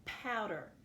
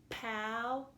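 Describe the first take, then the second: First: Said in the usual way. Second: "Powder" in two separated syllables; clapped-out syllables. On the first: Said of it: "Our second word for today is". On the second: Shown as a demonstration. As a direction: break "Powder" into pow, long pause, der. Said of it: "Let's clap that out".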